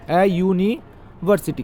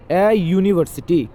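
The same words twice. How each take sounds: First: ए university drawn out slowly, each sound clear; slow demo. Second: Slow demo. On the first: Teacher slowly models ए university for students. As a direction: spell out ए university slowly for the class. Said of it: "क्यों होगा ए इसके पहले?". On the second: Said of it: "क्यों होगा". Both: Shown as a demonstration.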